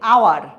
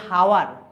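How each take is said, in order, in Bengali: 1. শব্দটি সরাসরি একটি স্বরধ্বনি দিয়ে শুরু হয়। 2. শব্দটি একটি স্পষ্ট h ধ্বনি দিয়ে শুরু হয়। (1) "আমরা কি বলছি আওয়ার ... এইচ উচ্চারিত হচ্ছে না" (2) "আমরা কিন্তু বলছি না যে হাওয়ার"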